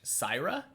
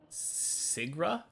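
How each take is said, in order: First: The middle consonant is a Y sound. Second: The middle consonant is a hard G sound. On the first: The speaker calls it right. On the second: The speaker calls it wrong.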